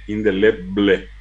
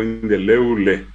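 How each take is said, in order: First: "Indeleble" said slowly with a clear bl; drawn-out "Indeleble", keeping the b before l; careful standard "Indeleble"; standard pronunciation. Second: "indeleble" as in-de-leu-le; "indeleble" with bl broken into u-l; Guaraní-influenced pronunciation. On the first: Shown as a demonstration. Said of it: "no dijo indeleble durante las elecciones". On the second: Retold or imitated. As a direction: turn the b of "indeleble" into a u glide. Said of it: "desaparece la B L y aparece".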